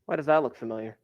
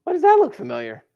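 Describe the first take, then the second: First: Musing quietly. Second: Squeaky high Why does that look familiar; high mock wonder. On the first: Teacher quietly wonders aloud to the class. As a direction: murmur it to yourself. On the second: Teacher playfully asks the class in a high squeak. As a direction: pitch it way up in playful surprise. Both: Shown as a demonstration.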